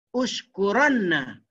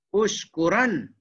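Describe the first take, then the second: First: "Ushkuranna" slow, with held nn before a; heavy doubled nun. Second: "Ushkuran" slow, ending on a single n; light nun. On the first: (sebut "Ushkuranna" dengan nun tebal) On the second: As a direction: close "Ushkuran" on n with no final vowel. (sebut "Ushkuran" dengan nun nipis) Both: Shown as a demonstration. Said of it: "satu tebal".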